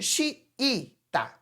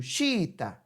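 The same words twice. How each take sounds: First: "xiita" broken into xi, i, ta with two separate I sounds; wrong split pronunciation. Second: "xiita" with the two I's merged into one xi; correct joined pronunciation. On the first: Teacher showing what she doesn't say, "xiita" split vowel by vowel. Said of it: "Eu não digo xiita". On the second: Teacher showing how she says it, "xiita" with one joined I. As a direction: say "xiita" smoothly as xi-ta, no break. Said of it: "Eu digo xiita". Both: Shown as a demonstration.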